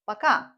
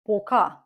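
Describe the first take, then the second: First: The first vowel is reduced, sounding like 'a'. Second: The first vowel is a full, clear 'o'. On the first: The speaker calls it right. "This vowel isn't stressed. The stress goes here. So пока" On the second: The speaker calls it wrong. "we don't say пока"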